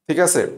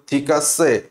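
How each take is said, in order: First: Said in the usual way. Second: Low Russian-accented ঠিক আছে. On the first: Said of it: "ঠিক আছে বলতে". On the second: Shown as a demonstration. Teacher imitating a Russian saying okay, Russian accent. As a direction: pronounce ঠিক আছে heavily, as a Russian would. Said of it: "তুমি যদি একজন রাশিয়ানকে বলো".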